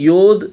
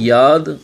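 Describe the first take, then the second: First: It is said the modern Hebrew way. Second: It is said the ancient Hebrew way. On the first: "modern ஹீப்ரூவில் வந்து யோத்" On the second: "ancient ஹீப்ரூவில் நீங்கள் பார்த்தீங்கன்னா யாத்"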